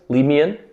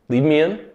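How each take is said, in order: No difference in how they are said.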